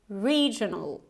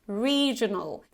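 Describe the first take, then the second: First: The first vowel is a long E. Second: The first vowel is a long E.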